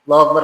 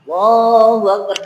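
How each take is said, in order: First: The phrase is said quickly and briskly. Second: The phrase is said slowly and drawn out. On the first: It is the call that starts the prayer. "tapi lebih cepat" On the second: It is the call to prayer. "kalau pertama azan dia tuh lama kan?"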